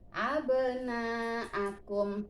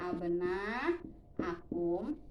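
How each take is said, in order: First: The long vowel is held only briefly. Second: The long vowel is stretched out fully.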